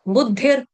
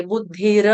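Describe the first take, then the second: First: बुद्धिर ending with just a light touch of र; barely touch the final र in बुद्धिर. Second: बुद्धिर with a full, heavy र at the end; over-pronounce the र in बुद्धिर; wrong full r. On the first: Teacher shows students the right way with light r. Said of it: "हल्का सा र का touch देना". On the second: Teacher shows students the wrong way with full r. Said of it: "ऐसे कोई नहीं गाएगा". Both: Shown as a demonstration.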